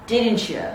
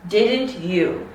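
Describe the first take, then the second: First: "Didn't you" as one word, "didncha"; "Didn't you" quick and run together as "didncha"; linked CH sound. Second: Said in the usual way. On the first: Shown as a demonstration. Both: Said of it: "insert this ch sound".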